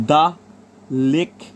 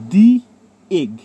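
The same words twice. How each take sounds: First: "the" said as "da" before "lake"; the before a consonant. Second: "দি" said as "dee" before "egg"; the before a vowel. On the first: Teacher giving the consonant example, "the" as da. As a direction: say "the lake" with a short da. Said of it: "বলা যায়". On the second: Teacher showing students the before a vowel, "দি" as dee. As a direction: say "দি egg" with a long ee in the. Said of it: "এইগুলো বলতে পারি যেহেতু vowel sound". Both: Shown as a demonstration.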